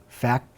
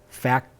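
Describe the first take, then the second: Both takes have the same delivery.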